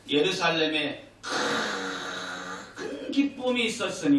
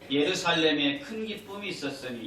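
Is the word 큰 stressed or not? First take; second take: stressed; not stressed. First: The word 큰 is strongly emphasized. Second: It is read flatly, with no stress on 큰.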